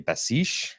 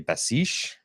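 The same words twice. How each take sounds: First: The name is pronounced the French way. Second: The same.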